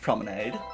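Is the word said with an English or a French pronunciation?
English. The word is pronounced the ordinary English way.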